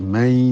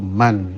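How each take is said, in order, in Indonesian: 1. Bunyi n menyatu menjadi bunyi y. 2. Kata itu berakhir dengan bunyi n yang jelas. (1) "karena bertemu ya menjadi may" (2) "asalnya itu man"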